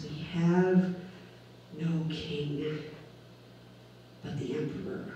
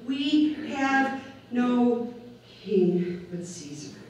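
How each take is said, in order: First: Dropping to a near whisper; hushed quote. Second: Drawn out, every word weighed; slow declaration. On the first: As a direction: let the crowd's words fade away softly. Crowd quoted denying their king. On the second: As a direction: let the crowd's verdict land slowly. Crowd quoted, rejecting their king. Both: Retold or imitated.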